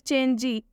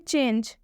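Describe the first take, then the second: First: The word ends with an added ee sound. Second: The word ends on the j with no vowel. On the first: The speaker calls it wrong. "वो लोग पढ़ देंगे चेंजे या फिर चेंजी। आपको ऐसा नहीं करना है" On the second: The speaker calls it right. "इसलिए हम ई का उच्चारण नहीं करेंगे"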